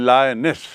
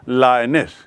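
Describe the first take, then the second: No difference in how they are said.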